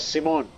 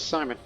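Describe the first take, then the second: First: The name has a Jewish-style pronunciation. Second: The name has its usual English pronunciation. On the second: The character is English. "he's English, so he's pronounced as Simon"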